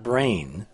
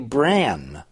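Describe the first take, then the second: First: The vowel sounds like the one in 'rain'. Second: The vowel sounds like the one in 'ran'. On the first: It suggests the organ studied in neuroscience. The speaker calls it wrong. "not brain" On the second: It refers to a plane-like object in physics. The speaker calls it right. "It should be bran"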